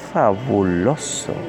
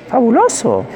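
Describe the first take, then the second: First: The word is said in a sensual tone. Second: The word is said in a comic tone. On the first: "con sensualidad le podría decir fabuloso" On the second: "como un comediante"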